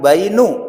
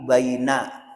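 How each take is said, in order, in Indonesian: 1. Kata itu berakhir dengan vokal 'u'. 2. Kata itu berakhir dengan vokal 'a'. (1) "bukan bainu" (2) "tapi baina"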